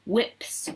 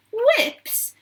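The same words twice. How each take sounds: First: Said in the usual way. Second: Very high, startled exclamation; astonished cry. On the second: A narrator's reading. Veruca reacting to the sign on the door, astonished cry. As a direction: echo the word in shock. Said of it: "cried Veruca Salt".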